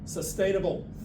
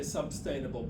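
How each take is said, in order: First: No b sound is heard in the word. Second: A b sound is added after the first syllable. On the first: The speaker calls it right. "but sustainable" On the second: The speaker calls it wrong. "you seem to like to say substainable"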